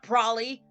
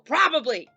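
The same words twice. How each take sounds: First: The word is clipped, with a syllable dropped. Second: The word is said with every syllable pronounced. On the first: The speaker calls it wrong. "Not probably" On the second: The speaker calls it right. "It's probably"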